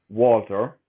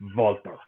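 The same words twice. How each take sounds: First: The name is said the American way. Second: The name is said a non-American way. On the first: The speaker calls it wrong. "For any Americans listening, it is not pronounced Walter" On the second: The speaker calls it right. "It is always and shall be pronounced as the Ring General Walter"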